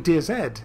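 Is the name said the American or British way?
British. The name is said the British way.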